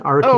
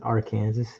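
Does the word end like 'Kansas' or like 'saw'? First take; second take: saw; Kansas. First: The word ends with a 'saw' sound. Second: The word ends like the word 'Kansas'.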